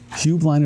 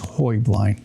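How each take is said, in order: First: Said the way the corporation pronounces the name. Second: Said with the original Bavarian pronunciation. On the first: The company's way of saying the name. "is the corporation" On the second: The original way of saying the name. "The correct Bavarian pronunciation"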